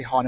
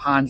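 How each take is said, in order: First: "han" said with no final d; "han" clipped, Scots style; Scots form. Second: "hand." said with a full final d; "hand." in ordinary English pronunciation; standard English form. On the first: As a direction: drop the d: "han". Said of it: "but you might say". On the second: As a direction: sound the d in "hand.". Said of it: "and not". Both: Shown as a demonstration.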